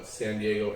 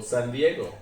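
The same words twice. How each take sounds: First: Said in the usual way. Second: "San Diego" said the Spanish way; Spanish pronunciation. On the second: Shown as a demonstration. Explaining local place names to the interviewer, "San Diego" in Spanish pronunciation. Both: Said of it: "is Spanish".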